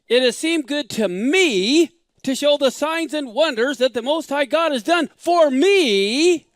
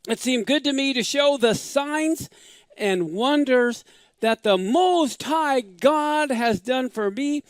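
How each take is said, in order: First: It sounds proud and self-important. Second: It sounds humble and reverent.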